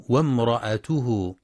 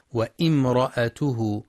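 First: وامرأته joined as "wamra'atuhu"; وامرأته with no stop after the waw; correct linking hamza. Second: وامرأته as "wa-imra'atuhu", glottal i after wa; slow wa-'im-ra-'a-tu-hu for وامرأته; mistaken glottal stop. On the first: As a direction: glide from wa straight into m in وامرأته. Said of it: "والصواب أنها همزة وصل تسقط وصلا". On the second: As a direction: break وامرأته after the waw with a hamza and i. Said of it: "بهمزة قطع مكسورة بعد الواو". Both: Shown as a demonstration.

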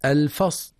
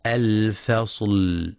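First: الفصل cut off before the lam sounds; final lam of الفصل lopped off; chopped lam. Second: Slow الفصل with the final lam let ring; الفصل ending on a lingering lam; sustained lam. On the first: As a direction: say الفصل as "al-fas", dropping the l. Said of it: "ببتر اللام". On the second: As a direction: hold the closing l of الفصل. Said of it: "في حرف اللام". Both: Shown as a demonstration.

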